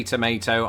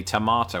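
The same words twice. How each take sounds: First: Tomato as "tuh-MAY-toh"; American tomato. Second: Tomato as "tuh-MAH-toh"; British tomato. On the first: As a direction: say "tomato" with a long AY. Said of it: "You say tomato". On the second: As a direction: say "tomato" with an open AH. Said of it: "I say tomato". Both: Shown as a demonstration.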